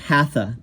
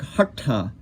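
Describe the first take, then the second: First: The middle consonant has a common anglicized sound. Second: The middle consonant is retroflex, tongue at roof. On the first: The speaker calls it wrong. "it's definitely not hatha, like hatha yoga, which you'll hear" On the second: The speaker calls it right. "It's more like hatha"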